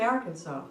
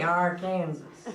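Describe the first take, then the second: First: The last syllable sounds like 'saw'. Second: The ending sounds like the word 'Kansas'. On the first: The speaker calls it right. "we say" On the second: The speaker calls it wrong. "We don't say"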